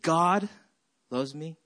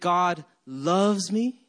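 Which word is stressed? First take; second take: God; loves. First: The stress is on God. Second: The stress is on loves.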